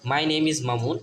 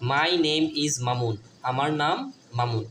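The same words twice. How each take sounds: First: Said in the usual way. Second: My name is Mamun said very slowly, word by word; slow model sentence. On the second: Shown as a demonstration. Teacher modelling an English sentence for pupils, slow. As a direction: read it slowly for children to copy. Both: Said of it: "My অর্থ আমার".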